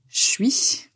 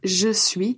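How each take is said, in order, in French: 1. Il est resserré en une seule syllabe courte. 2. Les deux syllabes sont prononcées en entier et séparément.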